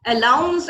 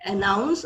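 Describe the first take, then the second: First: अलाउंस said loud with an L, as the common mistake; mock the common mistake: अलाउंस with an L; wrong pronunciation. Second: अनाउंस said clearly with an N; careful correct अनाउंस with a clear N; correct pronunciation. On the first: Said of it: "mispronounce करते हुए". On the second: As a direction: model the right अनाउंस, with an N, a little lower. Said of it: "अनाउंस अलग word है". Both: Shown as a demonstration.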